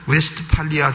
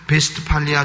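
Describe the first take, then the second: First: The name begins with a W sound. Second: The name begins with a V sound.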